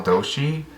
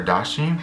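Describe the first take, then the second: First: Doshi said DOH-shee; pronunciation attempt. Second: Dashi said DAH-shee; alternative pronunciation. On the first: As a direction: say Doshi with a long O. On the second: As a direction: say Dashi with an open "ah". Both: Shown as a demonstration. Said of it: "or Dashi".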